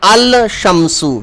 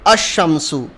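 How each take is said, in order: First: The l is pronounced before the sh. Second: The l is dropped and sh is doubled. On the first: The speaker calls it wrong. "We are not saying al-shamsu" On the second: The speaker calls it right. "we are saying ash-shamsu"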